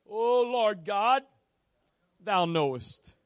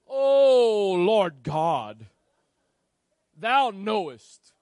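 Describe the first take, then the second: First: The first word "O" is said short. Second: The first word "Oh" is drawn out long.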